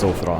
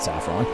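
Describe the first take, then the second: First: It does not sound like the spice word. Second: It sounds like the spice word saffron. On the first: The speaker calls it right. "It's Sofron" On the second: The speaker calls it wrong. "It's not Saffron"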